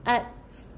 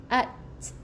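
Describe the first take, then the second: The two takes are said the same way.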